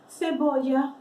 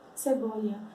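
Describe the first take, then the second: First: The first consonant is a lisped th sound. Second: The first consonant is a plain s sound. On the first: This is how it is said in Spain. "a gente pode pôr aqui na ponta da língua" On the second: This is how other Spanish-speaking countries say it. "nos outros países que falam espanhol, não pronuncia dessa forma"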